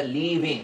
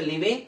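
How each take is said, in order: First: লিভিং with a long "ee" at the start; long drawn vowel. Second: লিভিং with a short first "i"; short vowel. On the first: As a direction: stretch the first vowel: leee-ving for লিভিং. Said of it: "আরো একটু টান হবে". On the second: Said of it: "আধা আলিফ টান". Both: Shown as a demonstration.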